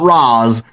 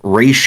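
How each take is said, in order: First: The name is said like 'rahz'. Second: The name is said like 'raysh'. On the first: The speaker calls it wrong. "not Raz" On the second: The speaker calls it right. "Is Raish Al Ghul"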